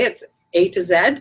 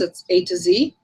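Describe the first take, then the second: First: The last letter is said as zed, Canadian/British style. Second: The last letter is said as zee, American style.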